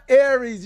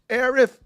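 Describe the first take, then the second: First: The name ends with an s sound. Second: The name ends with a th sound. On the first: This is the name from the older American localization. The speaker calls it wrong. "it's not Aries, you American" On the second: This is the corrected version of the name. The speaker calls it right. "It's Aerith"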